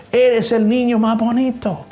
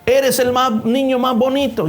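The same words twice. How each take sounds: First: Put-on higher, drawn-out echo of the boy; the echo repeats the boy, slowly. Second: Put-on higher boy voice calling out; a boy calling out to the hills; called out, slightly higher; child shouting compliment. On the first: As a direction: let it ring back from the rocks. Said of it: "Y la voz dijo". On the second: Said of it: "dile alguna otra cosa".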